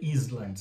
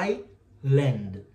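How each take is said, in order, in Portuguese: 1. O S é pronunciado no meio. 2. O S é silencioso no meio. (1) "Você não vai ler island" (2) "você vai ler assim, ó"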